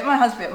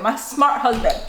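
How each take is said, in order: First: Said in the usual way. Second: "my smart husband", with "smart" stressed and falling. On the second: Shown as a demonstration. Praising her husband to viewers, "smart" stressed. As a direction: lean on "smart" with a falling tune.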